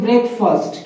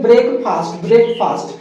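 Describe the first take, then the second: First: ब्रेकफास्ट as BREK-fust, short vowels; corrected pronunciation. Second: ब्रेकफास्ट as brayk-PAAST, long a; long "aa" in the end of ब्रेकफास्ट; childhood mispronunciation. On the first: Teacher giving students the proper word, corrected pronunciation. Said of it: "इसको बोलते हैं". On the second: Teacher recalling what we said since childhood, mispronounced. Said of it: "बचपन से क्या बोलते हैं". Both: Shown as a demonstration.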